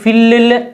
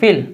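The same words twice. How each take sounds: First: The final L sound is doubled and held. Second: The final L sound is single and short. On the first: The speaker calls it wrong. "Double एल हो तो इसका मतलब ये नहीं कि फिल ऐसे पढ़ना नहीं" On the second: The speaker calls it right. "ला ही की आवाज आएगी"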